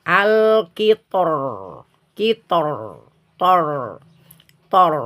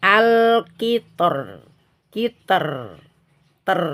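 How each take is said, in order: First: Slow al-kitor with heavy r; kitor, tor said thick and dark; heavy final tor. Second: Slow al-kitor with thin r; kiter, ter said light; thin final ter. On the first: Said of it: "kalau dibaca tebal". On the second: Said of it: "Tapi kalau tipis". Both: Shown as a demonstration.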